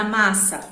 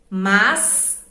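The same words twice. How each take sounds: First: Said in the usual way. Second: "massa" split as mas... sa, louder; "massa" with a long pause after mas; syllable by syllable. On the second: Shown as a demonstration. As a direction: separate the two S's in "massa". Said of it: "M A S de um lado".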